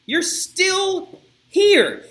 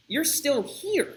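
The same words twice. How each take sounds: First: High, loud, very slow mocking call; loud sneering taunt. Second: Slow, drawn-out teasing question; mild taunt. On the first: Guard jeering at the women, high drawn-out loud taunt. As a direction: stretch it out high and loud to mock them. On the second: Retold or imitated. Guard teasing the women still waiting, slow rising taunt. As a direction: ask it slowly, rising at the end.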